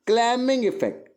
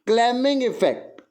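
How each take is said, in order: Both takes have the same delivery.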